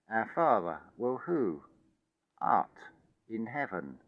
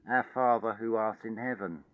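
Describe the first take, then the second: First: It is said with pauses between phrases. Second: It is said in one run without pauses.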